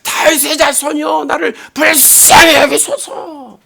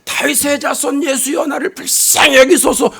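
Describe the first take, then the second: First: High, straining cry for mercy, drawn out at the end; high-pitched imitated wail; louder desperate cry. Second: Higher-pitched calling plea, volume held back; restrained mock shout; retold cry out. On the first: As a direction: act out a blind beggar crying out harder. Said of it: "더욱 소리를 지르면서". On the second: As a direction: imitate a blind beggar calling out for mercy. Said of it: "소리를 지릅니다".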